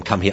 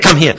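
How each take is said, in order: First: Said in the usual way. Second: Higher, louder, sharp burst of a command; mock shout. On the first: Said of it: "we shout at him". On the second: Trainer who screwed up frightening the dog, mock shout. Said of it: "we shout at him, come here".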